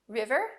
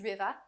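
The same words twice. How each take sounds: First: The R sounds are pronounced clearly. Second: The final R sound is dropped. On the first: "you can hear me say every R clearly" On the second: "my R's disappear in the middle or end of words"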